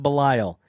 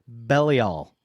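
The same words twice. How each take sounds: First: The middle part rhymes with 'vile'. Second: The start sounds like the word 'belly'. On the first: The speaker calls it wrong. "not pronounced Belial" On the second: The speaker calls it right. "It's Belial"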